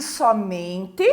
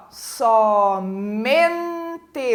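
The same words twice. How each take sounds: First: Said in the usual way. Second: "Somente" drawn out slowly, MEN held longest; stress on MEN. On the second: Shown as a demonstration. Teacher demonstrating the tonic syllable, "Somente" with MEN stressed and stretched. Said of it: "O men é a sílaba tônica".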